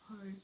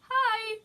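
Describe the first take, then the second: First: It is said in a normal-pitched voice. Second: It is said in a very high-pitched voice.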